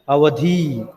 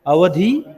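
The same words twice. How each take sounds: First: अवधि said short with a falling close; अवधि plain. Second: अवधि drawn out slowly on a rising tune; अवधि with expression. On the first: Teacher giving the class the second अवधि, short and falling. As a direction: drop अवधि crisply at the end. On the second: Teacher showing the class अवधि, slow and rising. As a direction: stretch अवधि slowly and lift the end. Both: Shown as a demonstration. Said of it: "see the expressions".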